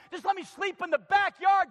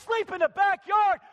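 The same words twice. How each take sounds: First: Raised, begging plea to Dad; pleading son. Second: Loud, high shout on backyard; father shouting the son's words back at him; incredulous shout. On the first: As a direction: beg like a ruined son come home. Son begs to sleep outside. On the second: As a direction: bellow it back in disbelief. Father repeats son's plea, shouting. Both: Acted.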